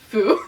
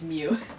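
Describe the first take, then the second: First: The name begins with an F sound. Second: The name begins with an M sound. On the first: The speaker calls it wrong. "Wrong consonant" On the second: The speaker calls it right. "It's pronounced Mew"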